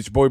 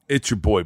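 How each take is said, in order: First: It is said fast and energetically. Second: It is said slowly, with careful pacing.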